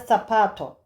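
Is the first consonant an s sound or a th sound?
th sound. The first consonant is a lisped th sound. This is how it is said in Spain. "İspanya'da zapato gibi"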